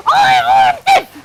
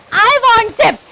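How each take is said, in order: First: Much higher shouted whine; child's tantrum shout. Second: Put-on higher, louder child wanting chips; whiny child. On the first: Acted. Counsellor as the child, yelling for chips in a tantrum, much higher and louder. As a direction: scream it like a child throwing a tantrum. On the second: Counsellor as the child, insisting on chips to the mother, higher and louder. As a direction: push the demand like a grumpy child. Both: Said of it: "I'm your child".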